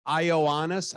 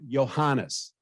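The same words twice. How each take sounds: First: "Ioannis" said without the h, as i-o-AH-nis; mispronounced name. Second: "Iohannis" with a clear h, as yo-HAH-nis; corrected name. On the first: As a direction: imitate the president getting "Ioannis" wrong, h sound dropped. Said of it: "No, no, Iohannis". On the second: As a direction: correct him firmly, stress the h in "Iohannis". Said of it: "No, no". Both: Retold or imitated.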